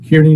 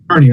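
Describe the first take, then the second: First: The first syllable sounds like 'keer'. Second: The first syllable sounds like 'car'. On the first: The speaker calls it wrong. "is that the correct uh, pronunciation" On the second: The speaker calls it right. "it's Carney"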